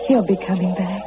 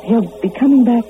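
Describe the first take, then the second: First: Low, subdued self-reassurance; subdued hope. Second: Louder, insistent self-reassurance; insistent hope. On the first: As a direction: say it low, as if to yourself. Waiting girl reassures herself. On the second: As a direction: insist on it, pushing the words out louder. Waiting girl insists he returns. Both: Acted.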